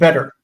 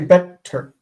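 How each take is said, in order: First: The t sound is short, not doubled. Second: The t sound is held long, doubled. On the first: The speaker calls it right. "we say better" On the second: The speaker calls it wrong. "We don't say better"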